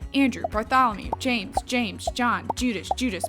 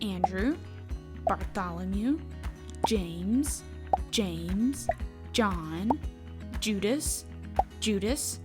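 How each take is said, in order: First: The names are said at a quicker pace. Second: The names are said at a normal pace.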